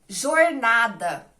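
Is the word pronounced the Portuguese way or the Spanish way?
Portuguese. It is pronounced the Portuguese way.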